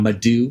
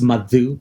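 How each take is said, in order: First: The d is a plain, hard English d. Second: The d is a soft, breathy dh sound. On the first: The speaker calls it wrong. "not Madhu" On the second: The speaker calls it right. "It's Madhu"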